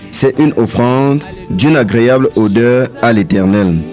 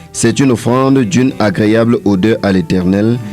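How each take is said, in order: No difference in how they are said.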